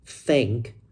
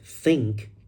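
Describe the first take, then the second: First: The word begins with a th sound. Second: The same.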